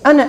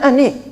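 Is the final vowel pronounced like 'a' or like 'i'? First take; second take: a; i. First: The word ends with an a sound. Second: The word ends with an i sound.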